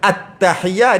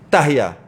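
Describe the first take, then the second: First: The word starts with the 'at' syllable. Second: The word starts without the 'at' syllable. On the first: The speaker calls it right. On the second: The speaker calls it wrong.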